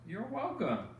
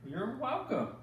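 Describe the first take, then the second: No difference in how they are said.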